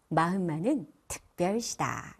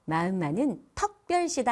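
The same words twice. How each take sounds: First: 특별시다 with a clear unrounded EU in the first syllable; correct standard vowel. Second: 특별시다 said as 턱별시다, with EO for EU; wrong dialect vowel. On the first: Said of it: "이렇게 하시면 좋습니다". (특별시다의 으를 정확하게 표준 발음으로) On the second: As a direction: show the dialect slip, opening the vowel in 턱별시다. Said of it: "아니고요". (특별시다의 으를 어로 바꿔 턱별시다) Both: Shown as a demonstration.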